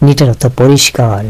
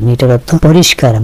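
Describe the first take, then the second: Both takes have the same delivery.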